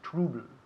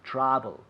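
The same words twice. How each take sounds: First: The first vowel is said with a closed mouth. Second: The first vowel is said with an open mouth. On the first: The speaker calls it wrong. "Not trouble" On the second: The speaker calls it right. "Con la boca abierta"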